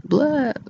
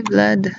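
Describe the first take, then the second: First: "Vlad" with a Dracula-like open vowel, higher. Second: Said in the usual way. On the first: Retold or imitated. Showing how he sounds, "Vlad" as a higher "Vlahd". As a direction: say "Vlad" as "Vlahd", pitch swooping down. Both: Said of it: "That's how he sounds".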